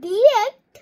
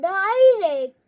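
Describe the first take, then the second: First: The first syllable sounds like "dih". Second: The first syllable sounds like "die". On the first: "মা ডিরেক্ট বলে রাখে" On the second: "ইটাকে আই উচ্চারণ করো"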